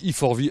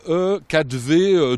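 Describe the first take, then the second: First: The letters and number are read in English. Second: The letters and number are read in French. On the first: The speaker calls it right. "on dit E4V à l'américaine" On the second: The speaker calls it wrong. "ça ne se prononce pas comme ça"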